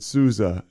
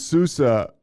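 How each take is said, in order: First: The middle consonant is a z sound. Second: The middle consonant is an s sound. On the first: This is the original form of the name. "you're supposed to pronounce it Sousa" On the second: This is how the family name is used now. "I'm Sousa"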